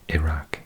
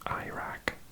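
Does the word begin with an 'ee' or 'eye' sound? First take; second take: ee; eye. First: The first vowel sounds like 'ee', British style. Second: The first vowel sounds like 'eye', American style. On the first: "Whereas in Britain we say E" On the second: "Americans often say it Iraq, because they pronounce an I at the beginning like an I"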